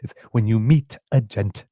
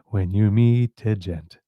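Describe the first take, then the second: First: The final consonants are popped crisply and clearly. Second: The final consonants are soft and barely heard. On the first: The speaker calls it right. "popping that in" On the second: The speaker calls it wrong. "it's not"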